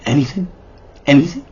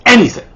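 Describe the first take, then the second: First: Quiet rising "Anything?"; questioning "Anything?". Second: High, falling "Anything"; assuring "Anything". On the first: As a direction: ask "Anything?" softly with a lifted ending. Boy checks grandma's offer. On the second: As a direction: confirm "Anything" from high pitch down to a firm end. Grandma confirms the offer. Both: Acted.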